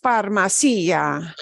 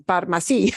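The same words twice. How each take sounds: First: Farmacia with the stress pushed onto the i; wrong stress. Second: Farmacia with the stress on ma, ia run together; correct pronunciation. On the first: Teacher demos how farmacia is not said. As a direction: stress the i in farmacia as if it had an accent. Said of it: "It's not pronounced". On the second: Teacher models the correct word. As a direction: keep the ia in Farmacia quick and unstressed. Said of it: "No es farmacia". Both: Shown as a demonstration.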